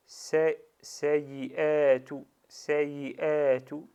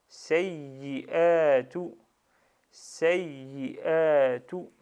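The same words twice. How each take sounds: First: "sayyi'atu" with a short single y, passed over lightly; no shadda. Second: "sayyi'atu" slow and loud, the double y held long; with shadda. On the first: Teacher showing the word lacking shadda, "sayyi'atu" with an undoubled y. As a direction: say "sayyi'atu" as sa-yi-atu, without doubling the y. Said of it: "Si j'avais pas shadda sur le ya". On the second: Teacher showing the word with shadda, "sayyi'atu" with a pressed, lengthened double y. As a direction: lean on the yy of "sayyi'atu" and stretch it before the long a. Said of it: "Mais j'ai bien shadda".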